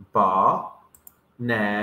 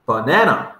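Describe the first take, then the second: First: Slow, split into syllables: "Ba-na-na". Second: Said in the usual way. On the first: Shown as a demonstration. Teacher breaks "Ba-na-na" into syllables for young learners, slow. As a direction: say "Ba-na-na" one slow beat per syllable.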